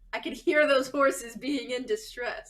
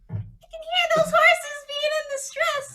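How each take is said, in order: First: It is said in the speaker's normal voice. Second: It is said in a put-on character voice.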